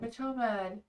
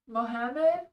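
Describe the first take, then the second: First: A hard consonant is sounded in the middle. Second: No hard consonant is sounded in the middle. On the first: The speaker calls it wrong. "I always say that name wrong" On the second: The speaker calls it right. "C is silent"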